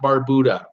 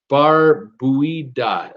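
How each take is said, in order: First: The last part sounds like 'booda'. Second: The last part sounds like 'bweeda'. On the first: The speaker calls it wrong. "not Barbuda" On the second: The speaker calls it right. "he says it's Bar Buida"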